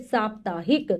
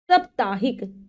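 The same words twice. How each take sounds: First: "साप्ताहिक" with a long first AA, saap-taa-hik; correct pronunciation. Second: "साप्ताहिक" with a short first vowel, sap-taa-hik; mispronounced word. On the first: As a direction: stretch the opening saa of "साप्ताहिक". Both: Shown as a demonstration. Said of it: "नहीं होता, क्या होता है".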